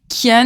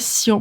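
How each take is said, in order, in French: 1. Le nom commence par un son K. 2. Le nom commence par un son S. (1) "moi je dis Kian" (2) "je dis pas Sian"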